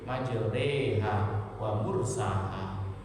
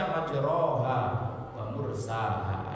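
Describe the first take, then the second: First: The vowel after 'majr' is tilted toward 'e'. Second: The vowel after 'majr' is an open 'a'. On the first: This is our own tradition's reading. "namanya bacaan imalah" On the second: This is another group's reading. "Memang ada yang membaca majroha wa mursaha"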